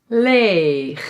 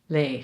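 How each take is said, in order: First: The g sound is hard and scraping. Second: The g sound is soft and gentle.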